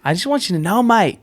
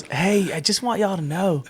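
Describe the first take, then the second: First: Higher-pitched, badly faked Australian accent; bad Aussie accent. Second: Put-on Southern accent. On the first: Shown as a demonstration. Friend attempts Muzz's Aussie accent on request, badly faked. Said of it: "Do the Aussie accent". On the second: Imitating a friend's phone call, mistakenly Southern accent. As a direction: slip into an accidental Southern accent. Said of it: "I don't know why I went Southern".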